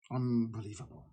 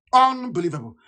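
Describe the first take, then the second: First: Much softer and lower, muttered to himself; quiet, disbelieving murmur; muttered disbelief. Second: Said in the usual way. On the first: Real, not acted. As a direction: breathe it out in disgust. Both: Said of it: "repeated word, soft then full".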